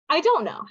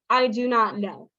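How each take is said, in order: First: Do not is contracted to don't. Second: Every word is said fully and separately. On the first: The speaker is a bit casual. "We shorten that to" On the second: The speaker is formal and proper. "if you are very formal, if you are a gentleman, someone who speaks very properly"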